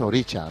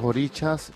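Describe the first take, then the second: First: The final s sound is dropped. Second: The final s sound is pronounced. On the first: This is the Cuban way of saying it. "en Cuba se dice Oricha también, la S se" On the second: This is the usual way of saying it. "Normalmente es Orichas"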